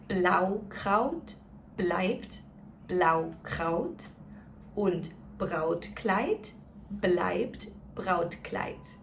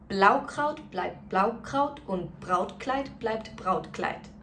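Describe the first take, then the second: First: It is said very slowly and carefully. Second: It is said at a moderately quicker pace. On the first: "let's go through it one more time really slowly" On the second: "let's do it a little bit quicker"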